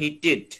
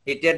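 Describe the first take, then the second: First: The ending is said with a reduced 'tid' sound. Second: The ending is said with an open 'ted' sound. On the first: The speaker calls it right. "উচ্চারণ হবে হিটেড" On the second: The speaker calls it wrong. "হিটেড না"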